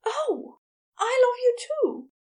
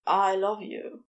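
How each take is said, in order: First: High, loud, emotional outburst; startled, high-pitched declaration of love; gasped realisation. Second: Slightly low, restrained love confession; understated declaration of love; understated Crowley. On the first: A narrator's reading. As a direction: gasp it out as a sudden loving confession. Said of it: "and then gasped". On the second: Acted. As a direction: say it simply, in a contained voice. Crowley's confession, paired with reply.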